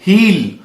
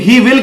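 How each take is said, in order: First: It is said as one short contracted syllable. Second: It is said as two full separate words. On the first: The speaker calls it right. "आप हील बोलेंगे" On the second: The speaker calls it wrong. "ही विल की जगह"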